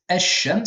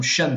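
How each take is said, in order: First: Ash-shams with the l merged into a doubled sh; assimilated article. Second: Shams said slowly, no al before it; slow Arabic shams, bare noun; without article. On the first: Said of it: "avec un L, juste avant". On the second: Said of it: "c'est un soleil". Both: Shown as a demonstration.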